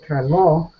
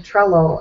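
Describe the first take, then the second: First: The stress is moved to another syllable. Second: The stress is in its usual place. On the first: It means crazy in Greek. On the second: It names the app.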